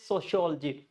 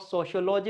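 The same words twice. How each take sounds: First: "sociology" stressed soci-OL-ogy; correct stress. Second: "sociology" as socio-LO-ji; wrong pronunciation. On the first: Teacher correcting learners, "sociology" stressed soci-OL-ogy. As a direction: hit OL in "sociology". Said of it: "it's sociology". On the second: Teacher showing the mistake, "sociology" as socio-LO-ji. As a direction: say "sociology" like socio plus logy. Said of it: "It's not sociology". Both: Shown as a demonstration.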